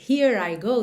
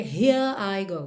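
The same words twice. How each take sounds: First: The words run together in one linked chunk. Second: Each word is said separately, without linking. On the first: The speaker calls it right. "é mais fácil você dizer here I go" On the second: The speaker calls it wrong. "do que here I go"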